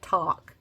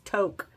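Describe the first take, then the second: First: The vowel sounds like the one in 'hawk'. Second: The vowel sounds like the one in 'joke'. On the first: The speaker calls it wrong. "I thought she meant talk" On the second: The speaker calls it right. "but it's not like that. It's Toke"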